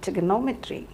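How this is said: It is said with an American pronunciation. "in US they say trigonometry"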